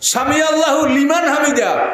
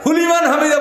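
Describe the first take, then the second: First: The phrase is said in full from 'Sami Alla'. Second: The phrase is clipped, starting at 'huliman'. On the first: The speaker calls it right. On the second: The speaker calls it wrong.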